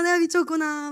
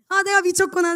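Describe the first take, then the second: First: Said in the usual way. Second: Higher, louder exclaim to herself; half-laughing gasp at her own crush; mock self-scolding. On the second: She scolds herself for her crush, in a raised exclaim.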